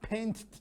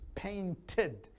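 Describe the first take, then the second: First: The ending is said without an extra syllable. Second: The ending is said as a separate 'id' syllable. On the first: The speaker calls it wrong. "not paint" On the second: The speaker calls it right. "No, it's painted"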